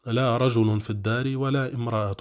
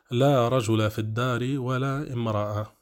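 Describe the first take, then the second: First: رجل as "rajulun", امرأة as "imra'atun"; nominative endings. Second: رجل said "rajula", ending in a short -a; accusative endings. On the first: Grammar teacher offering the alternative, nominative -un on رجل and امرأة. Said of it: "وإن شئت قلت". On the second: Grammar teacher showing the first option, accusative -a on رجل. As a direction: sound the -a on رجل, "la rajula fi d-dari". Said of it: "كلاهما منصوبان". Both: Shown as a demonstration.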